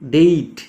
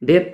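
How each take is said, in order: First: The vowel glides like 'ay' in day. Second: The vowel is a plain short 'e'. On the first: The speaker calls it right. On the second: The speaker calls it wrong.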